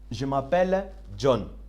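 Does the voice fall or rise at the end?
fall. The voice stays level or falls at the end. It states that the name is John. "this is a statement, normal statement"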